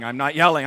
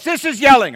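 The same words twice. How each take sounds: First: Loud but reined-in protest; raised voice, short of yelling. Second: High, full-volume demonstration yell. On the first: Angry man denying he is yelling, raised but reined-in voice. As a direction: insist firmly, holding back from a full yell. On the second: Angry man showing what yelling is, yelling. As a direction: show them what yelling really is. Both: Acted.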